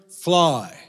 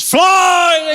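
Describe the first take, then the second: First: Said in the usual way. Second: High, loud drawn-out yell; full shout. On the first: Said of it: "say the magic word". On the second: Acted. Two brothers launching the punt, shouting at full voice. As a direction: bellow the magic word up high. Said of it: "shouted at the top of their voices".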